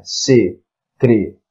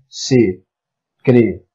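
First: "secretária" broken as se-cre-tá-ria; syllable by syllable. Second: "Secretaria" slowly split as se-cre-ta-ri-a; syllable by syllable. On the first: Teacher showing where the syllables split, "secretária" ending in one syllable "ria". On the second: Teacher correcting the split, "Secretaria" slowly in five separate syllables. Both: Shown as a demonstration. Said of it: "nós temos aí separação silábica".

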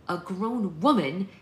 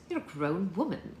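First: Loud, slow, rising disbelief; outraged questioning repeat; indignant echo. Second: Said in the usual way. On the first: A narrator's reading. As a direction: throw the words back, higher and louder. Daughter throws mother's words back.

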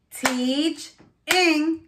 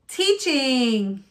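First: "Teach-ing" with a gap between teach and ing; chopped into syllables. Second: Said in the usual way. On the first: Shown as a demonstration. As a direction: chop "Teach-ing" into two beats. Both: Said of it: "chop it out".

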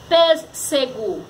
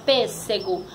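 First: "Pêssego" slowly split, pês, se, go; sílabas separadas. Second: "pêssego" in a running sentence, lightly divided; name "pêssego" without drawing it out; palavra citada. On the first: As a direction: spell out the syllables of "Pêssego". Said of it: "Olha como foi separada". ("Pêssego" devagar, sílaba por sílaba) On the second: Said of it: "como foi separada a palavra". ("pêssego" dito sem esticar) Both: Shown as a demonstration.

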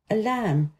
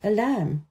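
No difference in how they are said.

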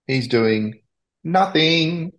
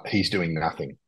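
First: "nothing" set apart after a pause, pitched high; pause, then lift "nothing" high for emphasis; stress on nothing. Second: Said in the usual way. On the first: Real, not acted. Podcaster repeats his verdict on Burton, "nothing" high and emphatic.

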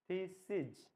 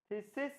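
First: থিসিস dropping to a voiced জ at the end; thee-seej for থিসিস, j for last s; final j sound. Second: Said in the usual way. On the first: Shown as a demonstration. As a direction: buzz the final consonant of থিসিস. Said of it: "জ লাস্টে".

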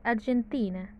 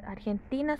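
First: Argentina with an English j in place of the Spanish throaty g; English pronunciation. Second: Said in the usual way. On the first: Shown as a demonstration. Teacher showing learners how Argentina sounds in English, English pronunciation. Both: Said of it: "la pronunciación en inglés".

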